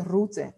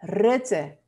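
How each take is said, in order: First: 'Rutte' with a Spanish oo, like 'Roote'; 'Rutte' said with oo in the first syllable; wrong name pronunciation. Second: 'Rutte' with a short eh-like u; firm 'Rutte', short e-like first vowel; correct Dutch name. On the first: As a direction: show the mistake: 'Rutte' with a back u. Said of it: "No me vayas a decir". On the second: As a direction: model 'Rutte' sounding close to 'Rette'. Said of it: "Él se llama". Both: Shown as a demonstration.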